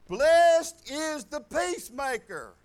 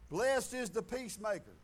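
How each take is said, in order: First: BLESSED drawn out loud, then each word slow; loud, slow stress on BLESSED; emphatic repeat. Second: Said in the usual way. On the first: Real, not acted. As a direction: proclaim "Blessed is the peacemaker" slowly, leaning hard on BLESSED. Verse repeated emphatically after calling it profound.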